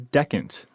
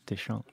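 First: The name is said without a French sound. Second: The name is said with a French sound. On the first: This is the real pronunciation of the name. The speaker calls it right. "it's actually Decant" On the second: This is what people assume from the spelling. The speaker calls it wrong. "the assumed pronunciation when you see it written"

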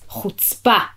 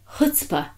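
First: It is said in an edgy, bitter way. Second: It is said lightly with a cute curl. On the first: Someone is insultingly inconsiderate. The speaker calls it right. "It's edgy and bitter" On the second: Someone is admirably bold. The speaker calls it wrong. "With a sort of curl to it, like a cute kind of chutzpah"

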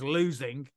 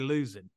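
First: The final g sound is pronounced. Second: The final g sound is dropped. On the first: "So it is losing" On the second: "me being as Southern as I am, I don't say the G's. See, I say losing"

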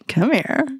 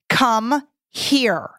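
First: It sounds playful and flirtatious. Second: It sounds firm and commanding. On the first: The speaker is flirting. "we can get into really flirty" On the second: Do it now. "which means do it now"

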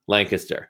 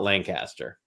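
First: It is the local pronunciation of the name. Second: It is an outsider's pronunciation of the name. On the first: The speaker is from the area. The speaker calls it right. "It's Lancaster" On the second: The speaker is not from the area. The speaker calls it wrong. "If you want to sound like an out-of-towner, call it Lancaster"

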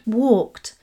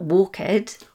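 First: The ending is a plain t sound. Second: The ending is not a plain t sound. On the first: The speaker calls it right. "verbs in this group are pronounced with the T at the end" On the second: The speaker calls it wrong.

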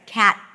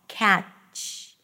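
First: The word ends cleanly on the blocked stop. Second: The word ends with an added hissing fricative. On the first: The speaker calls it right. "just end it after you're blocking the air" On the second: The speaker calls it wrong. "extra sound, this fricative"

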